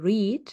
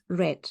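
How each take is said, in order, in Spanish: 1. La palabra no suena como 'red'. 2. La palabra suena como el color 'red'. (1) "El infinitivo es to read" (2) "el participio es red. Red, como el color rojo"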